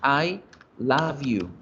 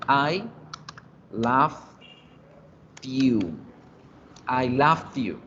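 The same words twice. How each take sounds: First: "love" ending in V, flowing into "you"; present-tense pronunciation. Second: "love" as "lovd", word by word, then joined; past-tense pronunciation. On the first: Teacher contrasting with the past, careful present-tense pronunciation. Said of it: "Mientras que en presente es". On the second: Teacher showing how past is pronounced, word-by-word demonstration. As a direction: break up "I love you" slowly, adding a D after "love". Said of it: "la forma de pronunciar en pasado". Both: Shown as a demonstration.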